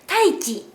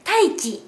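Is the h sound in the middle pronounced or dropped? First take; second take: dropped; dropped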